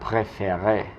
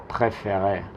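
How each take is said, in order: Both takes have the same delivery.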